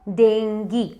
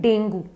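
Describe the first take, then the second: First: The word ends with a 'gee' sound. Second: The word ends with a 'goo' sound. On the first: "correct pronunciation English में है डेंगी" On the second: "normal language में हम कहते हैं डेंगू"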